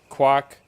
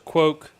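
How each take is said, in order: First: The vowel is a soft A sound. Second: The vowel is an O sound. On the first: "It's like a soft A" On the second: "with an O, it's quoke"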